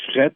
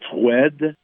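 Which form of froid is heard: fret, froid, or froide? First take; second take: fret; froide. First: The word has an open e vowel and final t. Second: The word ends in a clear d sound. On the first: This is how the word is said in Quebec. "Ça a devenu fret au Québec" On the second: This is how the word was said long ago. "se prononçait froide dans le temps"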